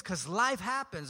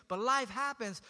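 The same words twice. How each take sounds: First: "life" leaned on, "'cause life happens" said slowly; slow stress on life. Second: Said in the usual way. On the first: Real, not acted. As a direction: let "life happens" land slowly and heavily. Slow weighty line with stress on life.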